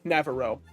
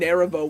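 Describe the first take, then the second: First: The name is said as 'Navarro'. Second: The name is said as 'Neravo'. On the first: The speaker calls it right. "Sorry, Navarro" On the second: The speaker calls it wrong. "Not Neravo"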